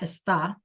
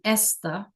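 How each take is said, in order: First: The stress is on the second syllable. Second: The stress is on the first syllable. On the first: It means he or she is. The speaker calls it right. "not esta" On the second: It means this. The speaker calls it wrong. "if we didn't put one here, it would change the pronunciation to esta"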